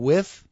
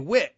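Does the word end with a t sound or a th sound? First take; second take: th; t. First: The word ends with a th sound. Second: The word ends with a t sound. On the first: "instead of saying with" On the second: "they drop off the H, and they say wit"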